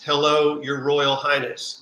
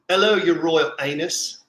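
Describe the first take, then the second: First: It is said in a plain accent. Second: It is said in a Cockney accent.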